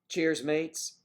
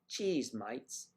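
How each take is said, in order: First: It is said in the speaker's plain accent. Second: It is said in an imitated Australian accent. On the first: "Cheers, mates, is cheese mites" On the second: "Australia, cheese mites"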